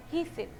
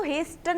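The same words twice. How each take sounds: First: हेस्टन with the T silent, like "HAY-sun"; हेस्टन said as "hasten" with no T sound. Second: हेस्टन with the T pronounced after the S; wrong-way हेस्टन, hard T sounded before the final "-un". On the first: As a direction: drop the T in हेस्टन, leaving only the S. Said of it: "टी को silent रख के क्या बोलना". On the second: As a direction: say हेस्टन with an audible "st" in the middle. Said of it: "इसको हेस्टन नहीं बोलते". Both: Shown as a demonstration.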